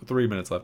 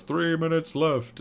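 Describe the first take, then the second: First: Said in the usual way. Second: Higher, slow eerie alien voice; creepy alien countdown. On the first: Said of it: "And it's like". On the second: Retold or imitated. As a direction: announce the doom slowly like a puppet alien. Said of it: "Squidward goes".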